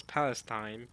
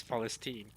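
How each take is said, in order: First: Palestine ending in "-stine"; rejected pronunciation. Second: Palestine with F and an "-steen" ending; Arabic pronunciation. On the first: Streamer warning against Palestine ending "-stine". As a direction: say Palestine with a long i at the end. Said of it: "as long as you not pronounce". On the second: Streamer correcting it to Palestine said "Falesteen". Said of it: "still with an E". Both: Shown as a demonstration.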